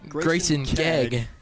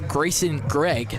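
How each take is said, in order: First: The surname has no r after the g. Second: The surname has an r after the g. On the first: The speaker calls it right. "but it's" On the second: The speaker calls it wrong. "I keep pronouncing it as"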